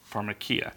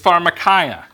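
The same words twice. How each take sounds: First: It is pronounced the modern Greek way. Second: It is pronounced in an anglicized way. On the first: "In modern Greek, they would pronounce that pharmakia" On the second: "The word is pharmakia"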